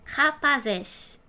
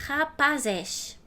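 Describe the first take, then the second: The two takes are said the same way.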